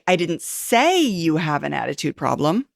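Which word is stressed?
say. The word "say" is stressed.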